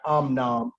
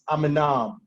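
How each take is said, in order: First: No vowel is sounded between m and n. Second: A short vowel is sounded between m and n. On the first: The speaker calls it wrong. "will pronounce this as a silent shiwa" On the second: The speaker calls it right. "You vocalize the shiwa because it's following a long vowel"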